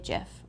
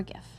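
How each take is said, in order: First: GIF with a soft G, like "jif"; gif starting like "jiffy". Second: GIF with a hard G; gif starting with a hard g sound. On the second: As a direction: say gif with the G of "gift". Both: Shown as a demonstration. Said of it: "however you wanna say it".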